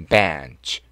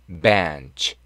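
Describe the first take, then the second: First: The ending is said lightly, passing over it. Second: The ending is said lightly, passing over it.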